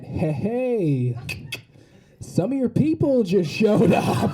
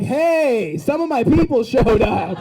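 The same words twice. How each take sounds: First: Slow, drawn-out mock mom aside; imitating mom's slow, too-audible heads-up; indiscreet announcement. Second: High, louder, drawn-out cheer; hammed-up happy shout, pitched up; delighted greeting. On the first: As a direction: stretch it out, tipping off your child indiscreetly. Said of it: "Keep your voice down". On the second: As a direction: call it out slowly, thrilled to see your people. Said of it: "I couldn't even be mad".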